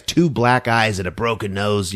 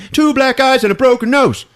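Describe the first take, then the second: First: Said in the usual way. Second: Much higher, louder, through laughter; laughing repeat. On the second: Shown as a demonstration. Retelling the horror movie, laughing it out. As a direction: crack up at the gore.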